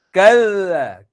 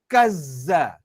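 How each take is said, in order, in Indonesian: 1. Konsonan tengahnya bunyi th yang ringan. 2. Konsonan tengahnya z berdengung yang kuat. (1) "pastikan hujung lidah sentuh gigi kapak" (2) "Sebab dia suka tekan bunyi zai itu. Salah"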